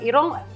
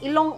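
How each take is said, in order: First: The middle consonant is an R sound. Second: The middle consonant is an L sound. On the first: This is the original local word for nose. "like in Bisaya" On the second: This is how speakers who could not say R said it. "the Chinese version was like they couldn't pronounce the R"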